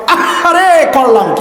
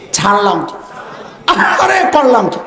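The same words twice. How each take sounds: First: A hammed-up cry of regret on আহারে, then a falling question; overdone sigh of remorse; mock regret. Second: Anguished regret. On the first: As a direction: lament as if slapping the forehead. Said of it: "কপালে একটা জোরে বাড়ি মারান আর বলেন". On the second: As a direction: wail as if the heart were burning. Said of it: "আহারে এমন ভাবে বলতে হবে যেন কলিজা পোড়া গন্ধ আসে". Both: Shown as a demonstration.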